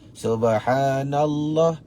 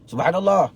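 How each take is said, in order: First: The phrase is said slowly and deliberately. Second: The phrase is said very quickly. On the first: "kalau dia ajar kita zikir subhanallah tiga puluh tiga tu" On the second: "Kita baru lima belas, dia dah habis tiga puluh tiga"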